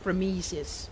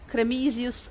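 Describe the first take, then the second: First: It is pronounced with English-like vowels and rhythm. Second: It is pronounced with Italian-like vowels and rhythm. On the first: "with a bit of a Anglo-Saxon lilt to it" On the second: "in an Italian and Latin sounding pronunciation"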